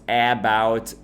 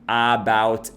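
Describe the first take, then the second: The two takes are said the same way.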